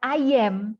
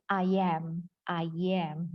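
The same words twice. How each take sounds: First: "I am" with a narrow e, like ayem; wrong I AM. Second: "I am" linked loosely with an open a, "ayam"; "I am" lower, open vowel, American style; relaxed American. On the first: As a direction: run "I am" into ayem. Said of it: "Tapi bukan". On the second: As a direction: let "I am" glide together, relaxed. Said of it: "yang lebih relax". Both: Shown as a demonstration.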